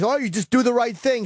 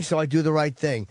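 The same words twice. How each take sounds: First: High sing-song mock of well-meaning advice. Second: Said in the usual way. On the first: Man mimicking people's glib advice, mock sing-song. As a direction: parrot the easy advice in a higher voice.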